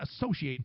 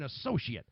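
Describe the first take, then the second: First: The last syllable sounds like 'ate'. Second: The last syllable sounds like 'it'. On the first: It names the act of being linked with a place. "not associate" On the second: It names a job title. "an associate. Uh, a different pronunciation"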